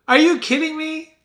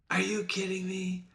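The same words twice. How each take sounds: First: High, loud mock disbelief; imitated incredulous outburst; mock amazement. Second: Soft, understated imitated reaction; hushed mock disbelief. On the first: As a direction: exclaim it high like an amazed onlooker. Acts out amazed stock reactions, twice. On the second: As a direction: say it much quieter, as a muted aside. Same stock reaction, toned right down.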